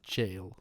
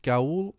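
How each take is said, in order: First: The word sounds like jail. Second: The word does not sound like jail.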